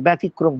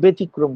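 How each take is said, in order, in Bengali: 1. প্রথম স্বরধ্বনিটি খোলা 'a' ধ্বনি। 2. প্রথম স্বরধ্বনিটি 'e' ধ্বনি। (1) "ব্যতিক্রম বলবে না" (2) "তাই ব্যতিক্রম বলবে"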